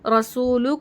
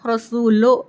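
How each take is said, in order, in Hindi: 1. अंतिम स्वर शुद्ध 'oo' ध्वनि है। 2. अंतिम स्वर 'oh' ध्वनि है।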